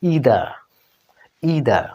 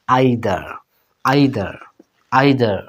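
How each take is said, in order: First: ইদার with an ee sound, EE-dar; ইদার, American way; American pronunciation. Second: আইদার, British way, repeated; British pronunciation. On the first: Teacher drilling American ইদার. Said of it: "এখানে উচ্চারণ হবে". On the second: Teacher drilling British আইদার. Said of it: "British এই শব্দটা উচ্চারণ হয়". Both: Shown as a demonstration.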